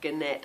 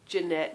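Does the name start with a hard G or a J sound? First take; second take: hard G; J sound. First: The name starts with a hard G sound. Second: The name starts with a soft J sound. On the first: The speaker calls it wrong. "Otherwise I might have said Gannet. Terrible" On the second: The speaker calls it right. "I'm sure you say Jeanette"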